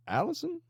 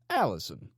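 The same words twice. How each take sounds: First: Allison? rising high, as if reading it for the first time; questioning read. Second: Allison. falling, firm and knowing; settled statement. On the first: Leader reading the wife's name off a photo, questioning. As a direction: sound out the name Allison? as a query. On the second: Leader confirming the wife's name with menace. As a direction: land Allison. as a fact. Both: A narrator's reading.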